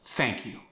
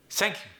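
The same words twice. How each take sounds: First: Said in the usual way. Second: High "thank you" with TH as S, Korean accent; Korean-accented "sank you", pitched up. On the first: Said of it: "went to the S sound". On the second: Shown as a demonstration. Coach demonstrating TH becoming S, Korean accent. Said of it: "The T H sound went to the S sound".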